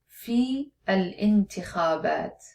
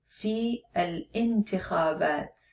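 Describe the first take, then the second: No difference in how they are said.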